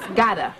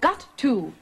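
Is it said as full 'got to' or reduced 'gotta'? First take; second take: reduced; full. First: The two words are run together as one. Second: Both words are said fully and separately. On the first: The speaker calls it right. "It's just gotta" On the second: The speaker calls it wrong. "you said, I've got to"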